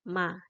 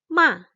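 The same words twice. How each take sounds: First: The pitch is light and neutral. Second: The pitch is sharp, like an angry voice. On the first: "membacanya adalah ringan saja" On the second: "diucapkannya seperti kayak orang marah gitu"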